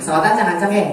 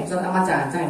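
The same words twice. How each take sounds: First: Said in the usual way. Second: Echoed back more softly; softer repeat. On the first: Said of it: "repeated line". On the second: Shown as a demonstration. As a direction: say it again, dropping the voice. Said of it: "repeated softer". (diulang lebih pelan)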